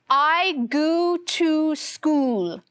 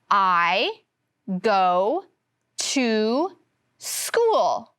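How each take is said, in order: First: Both go and to have the oo sound. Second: Go has a long O; to has oo. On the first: The speaker calls it wrong. "with all of the O's saying the oo sound" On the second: The speaker calls it right. "In go, the O makes the long O sound. But in to, the O makes the oo sound"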